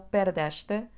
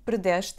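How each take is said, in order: First: The final vowel is fully pronounced. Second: The final vowel is dropped. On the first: The speaker calls it wrong. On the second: The speaker calls it right.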